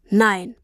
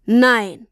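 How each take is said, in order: First: Said in the usual way. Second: A sharp, louder cry of no. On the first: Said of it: "sagte er". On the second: A narrator's reading. Papa realizes the money is gone, crying out. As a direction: burst out in disbelief.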